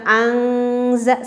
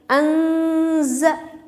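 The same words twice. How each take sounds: First: Angza very slow with a back ng; wrong nasal in angza; wrong ikhfa. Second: Anza slow and rising, nasal near the z; correct ikhfa. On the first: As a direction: drag out angza, ng in the throat. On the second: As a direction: say anza, tongue forward. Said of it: "tetapi anza". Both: Shown as a demonstration.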